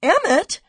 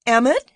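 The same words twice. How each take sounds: First: Much higher, loud call falling at the end; high-pitched excitement. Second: Loud, high rising call of his name; excited call. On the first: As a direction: shout his name again, urgent and thrilled. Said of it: "her voice high-pitched with excitement". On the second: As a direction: call out to him, bursting with news. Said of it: "she cried, her voice high-pitched with excitement". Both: A narrator's reading.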